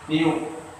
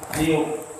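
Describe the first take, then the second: Both takes have the same delivery.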